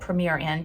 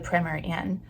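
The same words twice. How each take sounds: First: It is said with an American pronunciation. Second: It is said with a British pronunciation.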